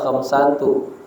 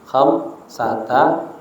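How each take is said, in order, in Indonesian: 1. Kata ini berakhir dengan vokal 'u'. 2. Kata ini berakhir dengan vokal 'a'. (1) "jangan dibaca khamsatu" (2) "khamsata asyara"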